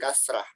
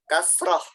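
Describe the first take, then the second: First: The final vowel sounds like 'a'. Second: The final vowel sounds like 'o'. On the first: The speaker calls it wrong. "bukan kasrah" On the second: The speaker calls it right. "Ini O"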